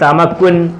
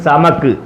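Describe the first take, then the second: First: The word ends with an -un syllable. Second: The word stops on a bare final consonant. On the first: The speaker calls it wrong. "എഴുതിയേക്കുന്നത് സമക്കുൻ" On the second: The speaker calls it right. "പറയേണ്ടത് സമക്ക്"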